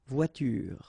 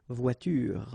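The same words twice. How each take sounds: Both takes have the same delivery.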